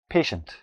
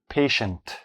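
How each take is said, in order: First: The word is said quickly and smoothly. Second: The word is said slowly, syllable by syllable.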